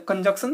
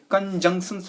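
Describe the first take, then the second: First: कंजंक्शन read the mistaken way, with 'k' before 'sh'; wrong pronunciation. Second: कंजंक्शंस modelled as kan-jung-sans; correct pronunciation. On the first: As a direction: say कंजंक्शन with a 'k' in the middle, as the reading to avoid. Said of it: "कंजंक्शन नहीं पढ़ते". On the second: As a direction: say कंजंक्शंस with a nasal 'jung' and final 'sans'. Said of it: "कंजंक्शंस पढ़ते हैं". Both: Shown as a demonstration.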